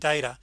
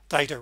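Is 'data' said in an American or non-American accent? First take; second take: non-American; American. First: It is said in a non-American accent. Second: It is said in an American accent.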